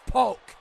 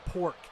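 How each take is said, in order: First: The name is said with an L sound. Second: The name is said with an R sound. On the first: The speaker calls it right. "It's Polk, not pork" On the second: The speaker calls it wrong. "they also like to say James K. Pork"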